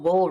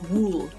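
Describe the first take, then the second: First: The vowel is short, rhyming with bull. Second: The vowel is long, rhyming with pool. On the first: This is how the speaker says it. "in my world, wool rhymes with the word foal" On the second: This is how the daughter says it. "she pronounces it wool, as in like wool remind wool rhymes with pool"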